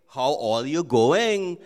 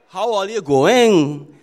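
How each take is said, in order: First: Slow, sing-song Trini lilt; Trinidadian greeting. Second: Slow and loud with the Trini sing-song rise and fall; Trinidadian intonation. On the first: Pastor showing how Trinis greet, slow Trinidadian lilt. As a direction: let the Trini tune carry it slowly. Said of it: "In Trinidad, they say". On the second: Pastor stressing the Trinidadian intonation for the congregation, slow loud Trini lilt. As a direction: lean hard into the Trini melody. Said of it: "there's intonations in it". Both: Shown as a demonstration.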